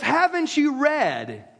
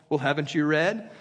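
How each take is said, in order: First: Said in the usual way. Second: Lower, condescending haven't you read?; insulting. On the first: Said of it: "He goes". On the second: Retold or imitated. Jesus needling the Pharisees, condescending. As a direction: talk down to learned men. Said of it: "Which was insulting".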